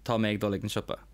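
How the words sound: Spoken in a southern Irish accent, mé full. "in Leinster and Munster, we would say Tá me"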